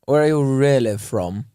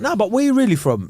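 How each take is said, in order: First: Lightly put-on posh accent. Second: Higher, casual street voice of a mate; mandem friend. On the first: Showing how someone asks where you're from, posh accent. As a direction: ask it in a middle-class posh accent. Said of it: "in an accent going". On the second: Retold or imitated. One of the mandem asks where you're really from, casual mate voice. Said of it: "you're with the man them".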